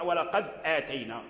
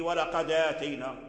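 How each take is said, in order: First: "ولقد آتينا" with a clean glottal stop before "آتينا"; hamza fully pronounced. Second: "ولقد آتينا" run together as "walaqadātaynā", no glottal stop; hamza dropped. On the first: Teacher showing what Warsh avoids in "ولقد آتينا", full hamza. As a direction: close the dal of "ولقد", then attack "آتينا" on a hamza. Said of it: "لم يقرأ". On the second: Teacher showing Warsh's reading of "ولقد آتينا", hamza dropped onto the dal. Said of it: "نقلوا حركته للسكون وحذفوه". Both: Shown as a demonstration.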